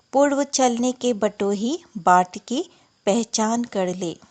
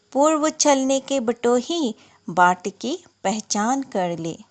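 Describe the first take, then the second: The two takes are said the same way.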